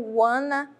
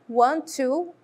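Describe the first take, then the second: First: Want to is contracted into wanna. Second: Want to is said in full, two words.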